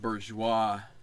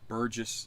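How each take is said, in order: First: The name is said with a French pronunciation. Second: The name is said with an English pronunciation. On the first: "it looks like Bourgeois" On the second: "I don't want to pronounce it like the French and just say Burgess"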